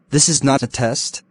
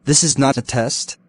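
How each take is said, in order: Both takes have the same delivery.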